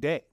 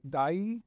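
First: The name is said as one syllable rhyming with say. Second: The name is said as one syllable rhyming with eye. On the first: "Deye is how I've been saying it" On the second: "Dai was another pronunciation, which I don't think is right"

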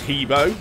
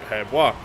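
First: The name is said like 'Hebo'. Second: The name is said like 'Herbois'. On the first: The speaker calls it wrong. "Many people think that his name is Hebo" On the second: The speaker calls it right. "the pronunciation is more similar to Herbois"

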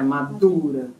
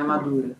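First: The d is followed by a puff of air. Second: The d has no puff of air after it. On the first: The speaker calls it right. "Sempre que a gente tiver o som de H, depois de uma consoante em sânscrito, vai fazer esse som. Então é madura" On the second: The speaker calls it wrong. "Não é madura"

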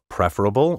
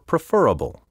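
First: The stress is on the traditional syllable. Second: The stress is shifted to another syllable. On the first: The speaker calls it right. "my first pronunciation of each word was the proper one" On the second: The speaker calls it wrong. "so many speakers now misplace the accent"

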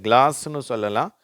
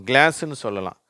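The two takes are said the same way.

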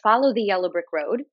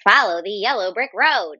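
First: It is said in a normal speaking voice. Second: It is said in a put-on character voice. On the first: "if I was to normally say" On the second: "in my best munchkin voice"

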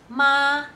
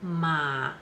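First: The syllable carries the first of four tones. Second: The syllable carries the third of four tones. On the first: The word means mother. "ma will have four tones" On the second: The word means horse. "ma will have four tones"

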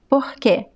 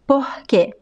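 First: The R sounds like a breathy H. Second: The R sounds like a breathy H.

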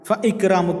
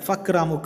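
First: The glottal stop before ikramuka is kept. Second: The glottal stop is dropped, merging into fakramuka. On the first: The speaker calls it right. "എന്ന് തന്നെ പറയണം" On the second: The speaker calls it wrong. "എന്ന് പറയൂല"

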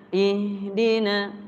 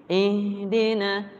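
Both takes have the same delivery.

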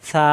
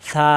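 Both takes have the same delivery.

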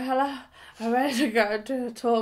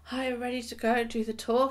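First: It is said in a distorted, impaired voice. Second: It is said in her ordinary voice.

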